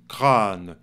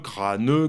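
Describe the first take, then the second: First: The word ends on the n, no final vowel. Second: A strong final vowel is sounded after the n. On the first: The speaker calls it right. "On dit" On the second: The speaker calls it wrong. "on ne dit pas"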